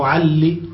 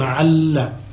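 First: The final consonant is followed by an 'i' vowel. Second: The final consonant is followed by an 'a' vowel. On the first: "على أصل التقاء الساكنين" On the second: "عل بالفتح للتخفيف"

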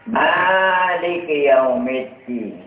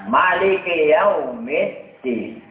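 First: The first vowel of maliki is long. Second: The first vowel of maliki is short. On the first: "Dengan sampai wajah sing panjang" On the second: "Dengan diwajah cekak"

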